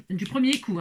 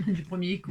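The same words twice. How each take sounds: First: Said in the usual way. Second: Laughing. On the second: Real, not acted. Teacher laughs at her first-try success, laughing. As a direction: repeat it through a soft laugh, a bit quieter.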